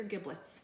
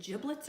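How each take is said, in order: First: "giblets" said with a hard G, GIB-lets. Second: "giblets" said with a J sound, JIB-lets; soft-g giblets. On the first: Cook asking which way to say it, "giblets" with a hard G. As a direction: say "giblets" with the g of "give". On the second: Cook asking which way to say it, "giblets" with a J sound. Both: Shown as a demonstration. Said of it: "Is it giblets or giblets?".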